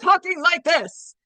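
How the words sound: The voice sounds upset and emotional. The person is upset. "you know that someone is upset if they're talking like this"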